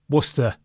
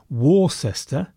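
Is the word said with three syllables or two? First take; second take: two; three. First: The word is said with two syllables, like Wooster. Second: The word is said with three syllables, keeping cess. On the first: The speaker calls it right. "So let's lose one of them. ... that's better" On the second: The speaker calls it wrong. "why say Worcester when cess and stir sound so very much the same"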